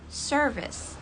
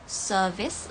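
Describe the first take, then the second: First: American "service" with the r pronounced; American accent. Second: British "service", r left silent; British accent. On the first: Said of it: "service untuk American". (logat American) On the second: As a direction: say "service" with a British long vowel, no r. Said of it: "untuk British dan". (logat British) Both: Shown as a demonstration.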